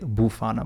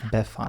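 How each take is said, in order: First: The first syllable sounds like 'boo'. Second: The first syllable sounds like 'beh'. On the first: The speaker calls it wrong. "I want to say Bufana" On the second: The speaker calls it right. "but it's Befana"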